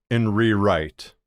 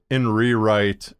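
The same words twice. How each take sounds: The two takes are said the same way.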